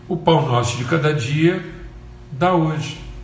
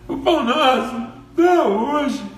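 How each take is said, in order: First: It is said in a humble, confident tone. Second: It is said in an arrogant, demanding tone.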